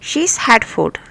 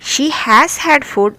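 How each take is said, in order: First: The word 'has' is shortened onto 'she'. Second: The word 'has' is said in full. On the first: The speaker calls it right. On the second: The speaker calls it wrong.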